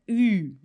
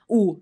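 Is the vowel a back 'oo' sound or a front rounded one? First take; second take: front rounded; back. First: The vowel is front with tightly pursed lips. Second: The vowel is a plain back 'oo' sound. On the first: The speaker calls it right. "é U" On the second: The speaker calls it wrong. "não é o U"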